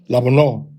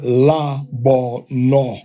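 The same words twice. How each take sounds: First: The first vowel is short and quick. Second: The first vowel is drawn out longer. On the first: The speaker calls it right. "quick la" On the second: The speaker calls it wrong. "not la bono"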